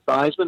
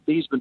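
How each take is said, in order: First: The name rhymes with Heisman. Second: The name does not rhyme with Heisman. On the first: This is the pronunciation changed for the campaign. "to Theismann" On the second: This is the family's original pronunciation. "they want to change our name from Theismann"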